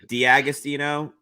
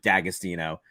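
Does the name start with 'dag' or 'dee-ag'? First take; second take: dee-ag; dag. First: The name opens with a separate 'dee-ag' sound. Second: The name opens with a single 'dag' sound. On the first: This is the original, technically correct form. "technically it's supposed to be" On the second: This is the simplified form the family adopted. "we just dropped the fancy Diag and just went"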